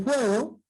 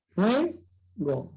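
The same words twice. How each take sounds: First: Said in the usual way. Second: "fuego" split as fue, pause, go; syllable by syllable. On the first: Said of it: "Entonces, fíjate". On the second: Shown as a demonstration. Teacher showing where the diphthong sits, syllable by syllable. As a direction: say "fuego" in two separate beats, fue and go. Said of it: "de esa manera".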